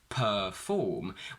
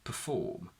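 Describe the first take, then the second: First: The first syllable has a full 'er' vowel. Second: The first syllable has a weak schwa vowel. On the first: The speaker calls it wrong. "We don't say perform" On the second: The speaker calls it right. "we just get a schwa. We say perform"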